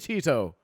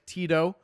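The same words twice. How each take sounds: First: The T sounds are said very crisply and strongly. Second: The T sounds are said in a relaxed way.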